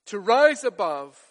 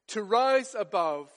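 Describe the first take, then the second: First: To rise above repeated louder, rise punched, falling at the end; stress on rise above. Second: Said in the usual way. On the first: Shown as a demonstration. Preacher repeating the phrase for emphasis, rise stressed louder. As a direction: lean hard on rise in To rise above.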